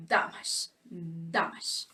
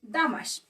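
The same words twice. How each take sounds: First: "damage, damage" whispered with DAM stressed; whispered demo. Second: "Damage" with the weight on DAM; stress on first syllable. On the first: Teacher quietly whispering the model word twice. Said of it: "this is where the sound of the word goes". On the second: Teacher repeating "Damage" to show the stress. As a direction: hit DAM in "Damage" and drop the rest. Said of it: "the accent is on the first syllables". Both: Shown as a demonstration.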